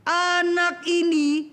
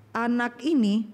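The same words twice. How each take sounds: First: Put-on slow, higher, louder scolding of the child; angry mother scolding: Anak ini; harsh scolding tone. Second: Said in the usual way. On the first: Shown as a demonstration. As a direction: bite out the words like an angry mother. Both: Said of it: "ibu sih pakai suara nada keras".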